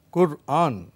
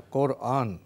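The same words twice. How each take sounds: First: "কোরআন" with an u in the first syllable, Kur-aan; "কোরআন" pronounced Kur'an, u not o; pronunciation with u. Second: "কোরআন" with an o in the first syllable, Kor-aan; "কোরআন" pronounced Koran, o not u; pronunciation with o. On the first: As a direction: say "কোরআন" as Kur-aan, two separate parts. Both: Shown as a demonstration. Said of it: "কোনটি শুদ্ধ বাংলা ভাষায়".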